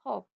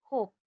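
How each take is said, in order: First: हॉप with a short open "o"; short o in hop. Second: होप with a long rounded "oh"; long o in hope. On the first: Teacher contrasting hop with hope, short vowel. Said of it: "एचओपी हॉप". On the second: Teacher showing magic e turning hop into hope, long vowel. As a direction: draw out होप into "hohp". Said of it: "एंड में ई आया है". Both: Shown as a demonstration.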